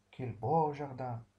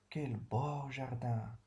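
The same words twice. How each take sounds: First: Slow admiring exclamation, a bit louder; stretched-out words of admiration. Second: Slow, drawn-out admiration; slow, wondering praise; admiring. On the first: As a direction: praise the garden slowly. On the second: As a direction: linger over it as if you see the garden. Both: Shown as a demonstration. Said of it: "un sentiment d'admiration".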